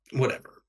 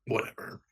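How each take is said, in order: First: Said in the usual way. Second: Whispered, much softer whatever; whispered aside. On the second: Real, not acted. Player giving in about the frogs, whispered Whatever. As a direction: drop to a resigned whisper on Whatever. Grudging acceptance, muttered repeat.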